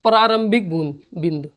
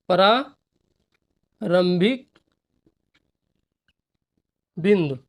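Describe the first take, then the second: First: Said in the usual way. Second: प्रारंभिक drawn out very slowly, then बिंदु after a pause; dictating the term for students to write; slow dictation. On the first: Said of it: "first take before dictation". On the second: Shown as a demonstration. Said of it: "dictating word by word".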